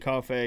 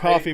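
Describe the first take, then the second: First: The name sounds like the word 'cafe'. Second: The name sounds like the drink 'coffee'. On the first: This is the speaker's own habit. "I pronounce it Cafe because it's got two e's" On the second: This may be the correct name. "it might be coffee"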